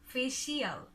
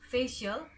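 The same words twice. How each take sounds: First: The ending is two syllables, like 'shee-al'. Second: The ending is one short 'shul' syllable. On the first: The speaker calls it wrong. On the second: The speaker calls it right.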